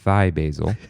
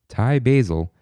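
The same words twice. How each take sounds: First: Thai is said with a mimicked odd pronunciation. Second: Thai is said with its usual pronunciation.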